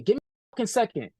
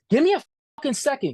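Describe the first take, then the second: First: Said in the usual way. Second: Higher, fast, imitating his irritated outburst; quoting the boss who cut him off, a fast irritated outburst. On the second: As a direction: fire it off like a fed-up boss, quick and impatient. Boss snaps at interviewer.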